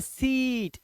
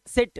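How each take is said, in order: First: सीट with a drawn-out "ee"; "seeet" on सीट, vowel stretched; long "ee" version. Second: सिट with a short vowel; brief, cut vowel in सिट; short-vowel version. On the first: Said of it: "अब बोलते हैं सीट". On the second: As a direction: say सिट quickly, no long "ee". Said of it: "अपने बोलते हैं सिट". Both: Shown as a demonstration.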